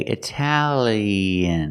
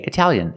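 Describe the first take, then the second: First: The word is said slowly and fully. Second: The word is said quickly and reduced. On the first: "If you slow it down" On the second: "if you say it fast"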